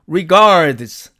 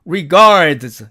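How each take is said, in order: First: The d before the final z is pronounced. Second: The d before the final z is pronounced.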